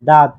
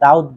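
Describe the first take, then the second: First: The word has a single vowel, like 'dad'. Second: The word has a vowel glide, like 'da-ud'. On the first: This is the standard way of saying it. The speaker calls it right. "এর সঠিক উচ্চারণ হচ্ছে দাঁত" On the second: This is the village way of saying it. The speaker calls it wrong. "আমরা গ্রামের ভাষায় দাউদ বলে"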